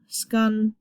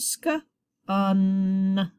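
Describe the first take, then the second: First: Skun run together in one syllable; blended word. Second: Sk, then un with a held n; short vowel sound. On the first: Teacher finishing the sounded-out word, blended skun. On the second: Teacher sounding out a closed syllable, Sk and un apart. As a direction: split Sk from short-u un. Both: Shown as a demonstration. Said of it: "Vowel's gonna say short sound".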